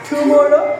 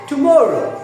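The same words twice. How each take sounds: First: The stress is on the first syllable. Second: The stress is on the second syllable. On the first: The speaker calls it wrong. "First সিলেবলে আমরা stage দেই টু, এরকম বলি না" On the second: The speaker calls it right. "কিন্তু আসলে শব্দটা কি হবে"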